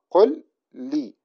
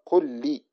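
First: "قل لي" slowly, pausing between the ل of قل and لي; two separate words. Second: "قل لي" run together as qullī, one doubled ل; fuse "قل لي" on a held ل; merged doubled lam. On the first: Teacher gives the written example first, two separate words. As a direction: say "قل لي" unmerged, each word apart. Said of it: "فتنطق". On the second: Teacher shows how it is pronounced, merged doubled lam. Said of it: "هكذا كأنها لام واحدة مشددة". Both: Shown as a demonstration.

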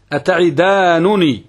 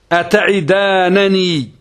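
First: Slow "أتعدانني" ending -nunī; "أتعدانني" with u after the first nun; first nun with damma. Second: Slow, higher "أتعدانني" ending -nanī; "أتعدانني" with a after the first nun; first nun with fatha. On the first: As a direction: say "أتعدانني" slowly as ata'idaanunī. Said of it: "بضم النون الأولى". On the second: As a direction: stretch "أتعدانني" as ata'idaananī. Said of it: "فتح النون الأولى". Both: Shown as a demonstration.

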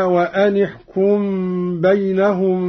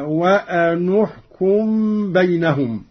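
First: Said in the usual way. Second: وأن احكم joined as "wa-anu-hkum"; damma on nun. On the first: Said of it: "قرأ قالون بضم النون". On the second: Shown as a demonstration. Teacher demonstrating Qalun's reading, وأن احكم said "wa-anu-hkum". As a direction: put a u after the nun of وأن. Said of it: "بضم النون".

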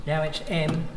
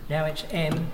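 The two takes are said the same way.

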